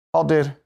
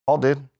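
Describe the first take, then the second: No difference in how they are said.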